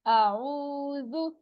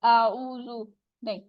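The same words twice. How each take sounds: First: आऊज़ु with ऊ drawn out very slowly; correct stretched reading. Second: आऊज़ु said quickly without the stretch; wrong short reading. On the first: Teacher models the correct stretched reading for students. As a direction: hold the ऊ in आऊज़ु long. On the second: Teacher shows the wrong, unstretched way to read. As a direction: clip the आऊज़ु short, as the mistake. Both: Shown as a demonstration. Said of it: "इसको ऊ नहीं कहना".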